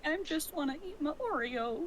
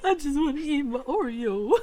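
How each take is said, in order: First: Higher, sly villain whine; Scar-like villain voice. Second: Higher sneering villain line; Scar impression. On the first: Real, not acted. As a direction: sound like a sneering lion villain. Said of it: "why did that sound like something Scar would say". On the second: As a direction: mimic a sly cartoon villain. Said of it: "sound like something Scar would say".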